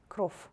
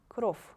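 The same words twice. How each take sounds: First: The final consonant is a voiceless f. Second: The final consonant is a voiceless f.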